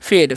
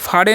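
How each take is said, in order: First: The vowel is an 'ay' sound. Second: The vowel is a long open 'aa' sound. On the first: The speaker calls it right. "तो हो गया फेड" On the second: The speaker calls it wrong. "जिसे फाड़े नहीं पढ़ना है"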